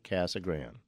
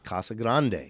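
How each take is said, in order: First: It is pronounced with English vowels and sounds. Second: It is pronounced with Spanish vowels and sounds. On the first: The speaker calls it wrong. "saying it is not Casa Grande" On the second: The speaker calls it right. "They are Spanish words"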